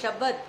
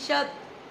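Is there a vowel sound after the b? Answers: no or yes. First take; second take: yes; no. First: The b is followed by a full vowel. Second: The b is said without any following vowel. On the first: "शब्द पूरे आवाज आ रही है" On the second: "लेकिन शब्द इसमें आधी आवाज है"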